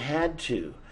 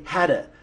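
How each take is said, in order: First: Both words are said fully and separately. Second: The words blend together into one reduced word. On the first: "now we're using had to" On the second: "we even say hadda"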